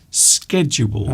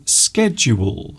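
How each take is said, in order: No difference in how they are said.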